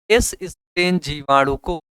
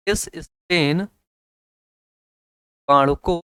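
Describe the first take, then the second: First: Said in the usual way. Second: S strain जीवाणु को stretched slowly, each word drawn out; slow dictation of S strain जीवाणु को. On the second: Shown as a demonstration. Teacher repeats phrase, second slower.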